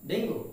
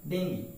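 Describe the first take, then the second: First: Dengue ending in a rounded O or OO; common mispronunciation. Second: Dengue as "DENG-gee"; correct pronunciation. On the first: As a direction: say Dengue as "DENG-go". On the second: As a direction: end dengue on an EE sound. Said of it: "This is". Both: Shown as a demonstration.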